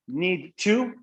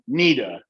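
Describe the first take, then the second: First: The word to is said in full. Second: The two words blend into needa.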